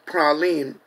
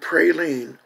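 First: The first vowel is a short A. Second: The first vowel is a long A. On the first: The speaker calls it right. "it's a short A" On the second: The speaker calls it wrong. "a no-no in Louisiana"

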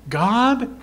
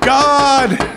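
First: It is said searchingly with more intensity. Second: It is said with the highest intensity.

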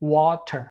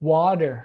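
First: It is said with a standard British accent. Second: It is said with an American accent. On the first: "คนอังกฤษ" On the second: "คนอเมริกาครับ"

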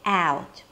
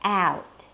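First: The vowel starts with a front 'a' as in 'cat'. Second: The same.

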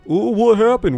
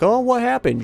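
First: It is said in a put-on guard voice. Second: It is said in the speaker's normal voice.

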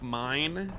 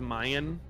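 First: It is said as one syllable, 'mine'. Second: It is drawn out into two syllables, 'Mayan'. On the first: The speaker calls it right. "instead of saying, like, mine" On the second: The speaker calls it wrong. "she says Mayan"

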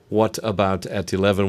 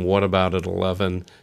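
First: The t sounds are clear, crisp t's. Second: The t sounds are soft, d-like sounds.

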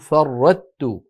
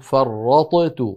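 First: The ṭ disappears completely into a plain t. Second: The ṭ is released separately with an echoing bounce. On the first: "ولو فعلوا" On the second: "ولو أظهروها لقلقلوا"

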